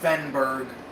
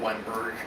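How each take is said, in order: First: The name begins with a V sound. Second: The name begins with a W sound. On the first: This is how some other people say it. "Some people pronounce his name um" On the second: This is how the speaker says it. "I say Wenberg"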